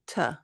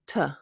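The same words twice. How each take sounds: First: The word is a short reduced 't' sound. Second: The same.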